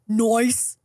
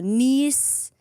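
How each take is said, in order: First: The vowel sounds like 'eye', as in 'rice'. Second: The vowel sounds like 'ee', as in 'piece'. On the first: The speaker calls it wrong. "I could have said nice" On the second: The speaker calls it right. "You could have you could have made a, a much bigger error there"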